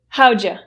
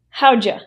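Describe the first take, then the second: First: The words are run together, 'you' reduced. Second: The words are run together, 'you' reduced.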